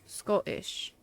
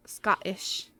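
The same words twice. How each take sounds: First: "Scottish" drawn out slowly as SKOH-tish; long O. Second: "Scottish" said as SKAH-tish, like the nationality; short open vowel. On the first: Streamer trying the person's name, "Scottish" with a long O. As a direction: say "Scottish" slowly with "oh" in the first syllable. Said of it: "like the word O". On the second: Streamer showing what their brain reads, "Scottish" with "ah". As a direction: say "Scottish" with an open "ah" in the first syllable. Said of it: "my brain goes Scottish". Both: Shown as a demonstration.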